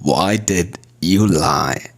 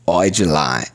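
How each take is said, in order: First: Every word is said separately and in full. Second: "Why did" is shortened into one syllable.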